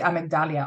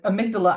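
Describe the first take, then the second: First: The word ends with an added '-dalia' sound. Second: The word ends with a plain '-dala' sound. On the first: The speaker calls it wrong. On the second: The speaker calls it right.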